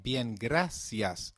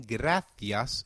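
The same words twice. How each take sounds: First: Bien, gracias said slowly with a clear s; slow Latin American bien, gracias; Latin American Spanish. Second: Gracias with a th sound for the c; gracias, Castilian th; European Spanish. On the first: Teacher contrasts Latin America, slow bien, gracias with s. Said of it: "in Latin America". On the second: Teacher contrasts Europe, gracias with th. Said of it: "in Europe". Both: Shown as a demonstration.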